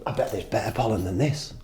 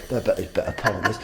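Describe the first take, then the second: First: A hint of a laid-back rogue bee; lightly voiced scheming bee, a touch lower and softer. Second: Put-on rogue bee in a light southern accent, rattled off fast. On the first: Rogue bee muttering about better pollen, lightly voiced. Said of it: "that's how they speak". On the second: Smoking rogue bee muttering in a light southern accent. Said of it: "I think they've got southern accents".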